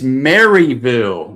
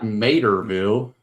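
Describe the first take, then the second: First: The name begins with the sound of Mary. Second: The name begins with the sound of Mater. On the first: The speaker calls it right. "It's Maryville" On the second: The speaker calls it wrong. "not Materville"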